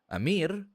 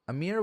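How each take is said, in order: First: The name is said with an Arabic pronunciation. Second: The name is said with an English pronunciation. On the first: "Amir is probably the better one. That's the Arabic one" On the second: "Amir works, that works for English enunciations"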